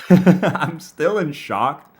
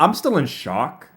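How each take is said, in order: First: Laughing through the words, slowly; stretched out between laughs. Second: Said in the usual way. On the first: Real, not acted. Repeats line laughing.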